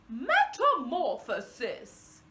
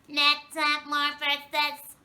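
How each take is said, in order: First: It is said in an intelligent scientist voice. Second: It is said in an alien voice.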